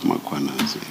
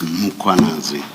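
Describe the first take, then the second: First: The name starts with an added a vowel. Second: The name starts directly with an m sound. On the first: The speaker calls it wrong. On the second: The speaker calls it right. "There is no A right at the beginning of uh, that first syllable. The A is after the H"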